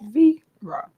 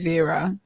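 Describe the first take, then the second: First: It is said in a Bahamian accent. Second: It is said in a British accent.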